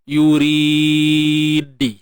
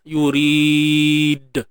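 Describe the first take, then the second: First: The final d is followed by an i vowel. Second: The final d is released with no vowel. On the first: The speaker calls it wrong. "ataupun baris bawah" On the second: The speaker calls it right. "Pastikan natural je"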